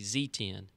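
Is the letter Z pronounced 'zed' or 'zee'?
zee. The letter is said the American way, 'zee'.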